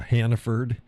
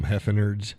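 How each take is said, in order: First: The name is said as Hannaford. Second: The name is said as Heffenards. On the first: This is the store's actual name. The speaker calls it right. "It's called uh" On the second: This is the speaker's own habitual version. The speaker calls it wrong. "I call them Heffenards"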